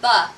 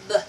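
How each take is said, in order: First: The consonant is followed by a vowel sound. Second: The consonant is clipped short with no vowel. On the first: The speaker calls it wrong. "Many children will try to say buh, but it's not buh" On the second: The speaker calls it right. "You have to cut it off"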